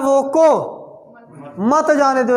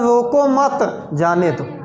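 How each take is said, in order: First: There is a pause right after रोको. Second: There is a pause right after मत.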